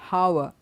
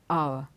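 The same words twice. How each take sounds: First: The word begins with an audible H sound. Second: The word begins directly with the vowel sound. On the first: The speaker calls it wrong. "is not hour" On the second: The speaker calls it right. "it is hour. ... The H is silent"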